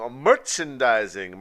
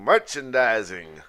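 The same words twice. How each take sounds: First: Loud, slow announcement; announcer voice. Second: Drawn-out announcer. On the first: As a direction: call out the segment title. Announcing segment title. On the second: Repeats title drawn out. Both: Acted.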